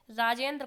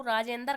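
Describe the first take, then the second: First: Said in the usual way. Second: राजेंद्र as "raa-jen-dar"; split final cluster. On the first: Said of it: "राजेंद्र को राजेंद्र". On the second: Shown as a demonstration. Teacher quoting a child, राजेंद्र ending in "-dar". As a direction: add a vowel between d and r in राजेंद्र. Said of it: "कहता है, किस प्रकार".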